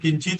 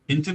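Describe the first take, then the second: First: The final t carries a full vowel after it. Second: The final t is cut short without a vowel. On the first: The speaker calls it wrong. "आपण किंचित असं म्हणत नाही कधी" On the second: The speaker calls it right. "किंचितच म्हणतो"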